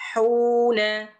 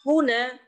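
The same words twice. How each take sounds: First: The first vowel is held long. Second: The first vowel is short and quick.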